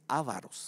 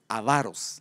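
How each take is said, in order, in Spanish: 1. El acento cae en la primera sílaba. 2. El acento cae en la segunda sílaba. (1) "no se dice avaros" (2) "Se dice avaros"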